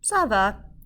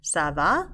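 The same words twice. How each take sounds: First: It falls at the end like a statement. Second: It rises at the end like a question.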